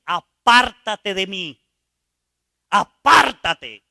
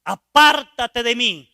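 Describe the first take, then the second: First: Loud and slow, each word pushed away; a pleading shout to be left alone; desperate rejection. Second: Loud, slow apártate de mí; a loud pushing-away cry; repeated rejection. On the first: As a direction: cry out apártate in shame. Dying man rejects God. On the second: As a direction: shout it again, dragging apártate. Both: Retold or imitated.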